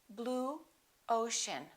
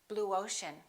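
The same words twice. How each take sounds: First: The two words are said separately. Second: A w sound links the two words.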